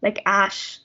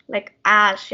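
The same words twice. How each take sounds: First: Ash with an open stressed A. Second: Ash with the A stressed and open. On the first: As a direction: hit the A of ash. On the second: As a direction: lean on the A of ash. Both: Shown as a demonstration. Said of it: "stress the A sound".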